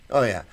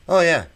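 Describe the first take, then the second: First: Said in the usual way. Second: Loud, high burst of agreement; excited oh yeah. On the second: Real, not acted. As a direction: blurt it out, thrilled. Eager agreement with chat comment.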